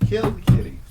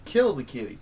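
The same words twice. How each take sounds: First: "kill the kitty" hissed voiceless but much louder and higher; hammed-up whispered scream of "kill the kitty"; mock stage-whisper yell. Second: Said in the usual way. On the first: Chant peaks in a hiss-shout.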